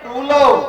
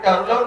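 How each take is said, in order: First: The t-r cluster is said together. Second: An extra vowel splits the t-r cluster. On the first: The speaker calls it right. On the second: The speaker calls it wrong. "ટરુ લવ નહીં"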